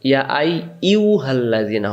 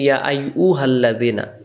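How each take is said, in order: First: The syllable is a 'yu' sound. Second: The syllable is a plain 'u' sound. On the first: The speaker calls it right. "হবে" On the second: The speaker calls it wrong. "আমরা অনেকে বলি"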